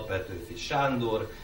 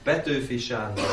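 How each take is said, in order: First: The stress falls on the given name Sándor. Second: The stress falls on the family name Petőfi. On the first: The speaker calls it wrong. "és nem" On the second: The speaker calls it right. "a magyar nyelvben az elején van a névnek a hangsúly"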